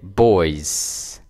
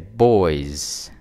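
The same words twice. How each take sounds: First: The word ends with an s sound. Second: The word ends with a z sound. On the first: The speaker calls it wrong. "We don't say boys" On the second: The speaker calls it right. "with the Z at the end of the word"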